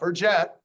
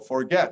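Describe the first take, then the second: First: The G is said as a soft sound. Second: The G is said as a hard sound. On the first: The speaker calls it wrong. "not forget" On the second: The speaker calls it right. "It's not always a soft G when you have uh, an E after the G. So forget"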